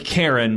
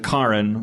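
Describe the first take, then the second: First: It is said like the common English name. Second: It is said differently from the common name. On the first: This is how the name looks when written. "what looks like Karen" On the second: This is how the owners want it said. "they would prefer you pronounce it Karen"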